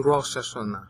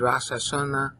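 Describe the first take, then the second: First: The vowel is an 'o' sound. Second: The vowel is an 'a' sound. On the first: This is the modern pronunciation. "they say" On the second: This is the original pronunciation. "it should be"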